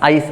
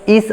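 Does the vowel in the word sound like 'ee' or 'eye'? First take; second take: eye; ee. First: The vowel sounds like 'eye'. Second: The vowel sounds like 'ee'. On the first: The speaker calls it right. "आईस असं केलं जातं" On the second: The speaker calls it wrong. "ईस असं न म्हणता"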